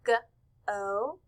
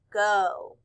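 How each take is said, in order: First: "G-o" broken into "guh", pause, "oh"; sounded out. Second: Said in the usual way. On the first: Shown as a demonstration. Teacher splitting a word for the class, sounded out. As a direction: say "G-o" as two separate sounds. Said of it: "We hear the g". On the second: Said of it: "blend the word go together".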